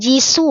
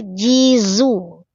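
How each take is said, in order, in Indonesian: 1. Konsonannya bunyi s yang mendesis. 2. Konsonannya bunyi z yang berdengung. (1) "Bukan jisu ya" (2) "tertahan napas"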